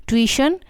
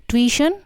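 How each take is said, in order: No difference in how they are said.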